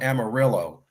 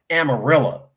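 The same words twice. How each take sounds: First: It is said the way Californians say it. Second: It is said the way Texans say it. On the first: The speaker calls it wrong. "over in California, we call it Amarillo" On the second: The speaker calls it right. "It's called Amarillo"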